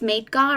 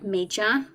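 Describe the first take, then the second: First: The word ends with a hard G and 'ar'. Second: The word ends with a soft J sound. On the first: The speaker calls it right. "instead of Midgar" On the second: The speaker calls it wrong. "I said Midja"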